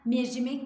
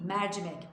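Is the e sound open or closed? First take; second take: closed; open. First: The e is said closed. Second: The e is said open. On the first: The speaker calls it wrong. "mercimek değil" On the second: The speaker calls it right. "Oradaki E açık"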